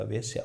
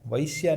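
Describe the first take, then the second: First: Said in the usual way. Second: वैश्या with a wide ai glide; wrong pronunciation. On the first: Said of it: "वेश्या होता बस". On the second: Shown as a demonstration. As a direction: open the first vowel of वैश्या into ai. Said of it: "वैश्या नहीं होता". (वैश्या में गलत ऐ की ध्वनि)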